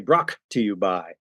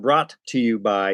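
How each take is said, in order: First: The first word ends in a K sound. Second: The first word ends in a T sound. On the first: "he'd say Brock to you by, like Brock" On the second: "instead of brought to you by"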